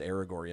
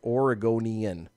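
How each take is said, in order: First: The word begins with an 'Ara' sound. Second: The word begins with an 'Ore' sound. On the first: The speaker calls it wrong. "I said Aragornian" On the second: The speaker calls it right. "Let me say it right"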